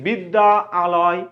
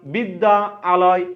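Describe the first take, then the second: The two takes are said the same way.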